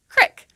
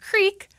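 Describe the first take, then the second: First: The vowel is a short i sound. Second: The vowel is a long ee sound. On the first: "some people in Appalachia pronounce this word as crick, with an is sound" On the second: "instead of the long E sound, as in creek"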